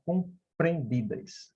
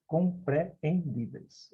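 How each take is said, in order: First: Said in the usual way. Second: "compreendidas" slow, softer, with "e-en" split; hiatus pulled apart. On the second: Shown as a demonstration. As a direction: say "compreendidas" slowly, vowels in separate syllables. ("compreendidas" devagar, vogais separadas) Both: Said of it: "Ninguém vai falar compreendidas".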